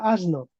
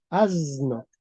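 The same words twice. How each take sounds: First: "asno" with a voiceless s before the n; unvoiced S pronunciation. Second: "asno" with a long buzzing z for the s; voiced S pronunciation. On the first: Teacher warns students how not to say it, "asno" with voiceless s. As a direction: keep the s of "asno" a pure unbuzzed S. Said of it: "no se pronuncia asno". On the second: Teacher shows modern Spanish to students, "asno" with drawn-out z sound. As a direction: stretch the s of "asno" into a voiced zzz. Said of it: "la S se transformó en una Z". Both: Shown as a demonstration.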